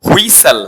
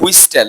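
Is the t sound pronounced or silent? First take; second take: silent; pronounced. First: The t sound is silent. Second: The t sound is pronounced. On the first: The speaker calls it right. "টিটা silent থাকবে" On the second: The speaker calls it wrong. "কিন্তু হুইস্টেল না"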